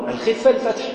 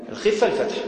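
No difference in how they are said.

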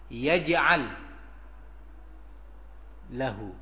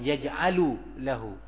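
First: Yaj'al ends on the l with no vowel. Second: Yaj'al ends with an added u vowel. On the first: The speaker calls it right. "tapi yaj'al pakai sukun lagi" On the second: The speaker calls it wrong. "bukan yaj'alu lahu"

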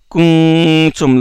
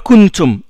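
First: The n is hidden, the tongue tip not touching. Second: The n is fully pronounced with the tongue touching. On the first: The speaker calls it right. "le bout de la langue ne touche pas" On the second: The speaker calls it wrong. "On ne dit pas kuntum. On ne prononce pas le nun"

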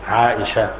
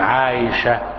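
First: The middle consonant is a clear glottal stop. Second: The middle consonant is a y sound. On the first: This is the form used by linguists and jurists. "أهل اللغة وأهل الفقه والسير والأخبار يقولون عائشة بهمزة محقق" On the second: This is the form used by hadith scholars. "وأهل الحديث يقولون عائشة بإبدال الهمزة يا"

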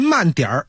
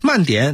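First: The syllable ends with an r-colored sound. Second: The syllable ends without an r-colored sound. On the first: The speaker calls it right. "儿化音" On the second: The speaker calls it wrong. "您要不都写出来呢，这句话在文字上就成了慢点"

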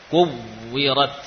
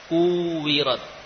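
First: The w is doubled with firm lip pressure. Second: The w blends into a long u vowel. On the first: The speaker calls it right. "Bibir betul-betul ada tekanan" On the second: The speaker calls it wrong. "kalau tasydidnya tidak jelas, maka yang terdengar apa? Wawu mad"

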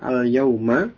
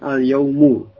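First: The word ends with a short a vowel. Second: The word ends with a short u vowel. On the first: It means on this particular day. "kalau dibaca dengan fathah al-yauma" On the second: It simply means a day. "al-yaumu yang huruf akhirnya dengan dhammah"

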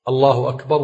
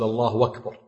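First: Akbar begins with a clear glottal stop. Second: Akbar begins with a w sound instead. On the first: The speaker calls it right. "ولا بد أن يظهر الهمزة" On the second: The speaker calls it wrong. "وذاك من الأخطاء ... يبدل الهمزة واو"

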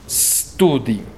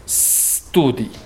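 First: The word starts directly with the s. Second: The same.

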